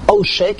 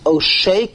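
First: The stress is on the first syllable. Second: The stress is on the last syllable. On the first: It refers to the act of extortion. "if the emphasis was on the ayin, Oshek, it would be Mila'el" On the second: It refers to the extortionist. "it's Milara. The emphasis is on the shin"

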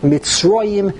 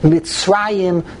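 First: The middle vowel is a rounded 'o' sound. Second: The middle vowel is an open 'a' sound. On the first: It is the form at the end of the verse. "to a komatz" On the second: It is the ordinary form within the verse. "it changes from a patach"

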